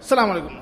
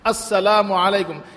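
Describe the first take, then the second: First: The greeting starts without the opening 'as-' syllable. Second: The greeting starts with the full 'as-' syllable. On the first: The speaker calls it wrong. "এটা মানে সালামের আসল উচ্চারণ হলো না" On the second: The speaker calls it right. "পরিপূর্ণ সালাম দাও"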